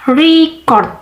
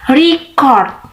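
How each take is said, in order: First: The stress is on the first syllable. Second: The stress is on the second syllable.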